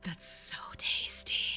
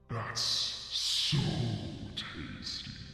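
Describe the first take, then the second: First: It is said in the speaker's ordinary voice. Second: It is said in a put-on Morgoth voice.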